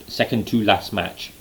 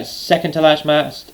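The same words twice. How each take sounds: First: Said in the usual way. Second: "second to last match" slurred into "second to lash mass"; tongue-tied slip. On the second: Real, not acted. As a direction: trip over "last match", sounds smeared together. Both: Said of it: "couldn't even talk properly then".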